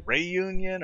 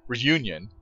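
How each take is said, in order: First: Reunion said slowly as "ray-YOON-yun"; accented E pronunciation. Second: Said in the usual way. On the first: Shown as a demonstration. Gamer guessing how locals say it, accented E pronunciation. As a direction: stretch out "Reunion", starting it with "ray". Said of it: "I don't know if it was, like". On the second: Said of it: "I don't think they would call it".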